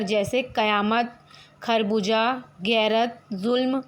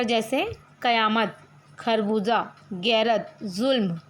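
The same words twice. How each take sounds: First: कयामत, खरबूजा, गैरत, जुल्म said slowly with Urdu sounds, z in जुल्म; Urdu nukta sounds demo. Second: कयामत, खरबूजा, गैरत, जुल्म said slowly again with Urdu sounds, z in जुल्म; Urdu nukta sounds repeated. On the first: Teacher models the nukta sounds of कयामत, खरबूजा, गैरत, जुल्म for students. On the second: Teacher repeats the nukta sounds of कयामत, खरबूजा, गैरत, जुल्म for students. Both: Shown as a demonstration. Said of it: "शुद्ध उच्चारण की दृष्टि से".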